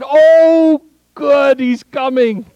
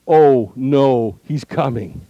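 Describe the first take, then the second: First: It sounds glad and celebratory. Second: It sounds dismayed and alarmed.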